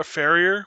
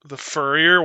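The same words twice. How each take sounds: First: "farrier" said like far, rising; "farrier" with the vowel of far; corrected word. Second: "furrier" said like fur, rising; "furrier" with the vowel of fur; wrong word. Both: Shown as a demonstration. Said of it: "Wa-, farrier?".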